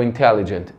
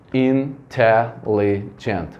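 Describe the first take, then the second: First: Said in the usual way. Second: "intelligent" slowly split into in-te-lli-gent; "intelligent" drawn out slowly, one beat per syllable. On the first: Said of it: "se eu for contar então". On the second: Shown as a demonstration. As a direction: count out each syllable of "intelligent" with short gaps. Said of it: "bater palma pra contar a sílaba".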